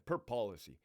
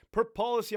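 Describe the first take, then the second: First: Said in the usual way. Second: Emphatic per policy. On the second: Acted. Mock threat to an inmate.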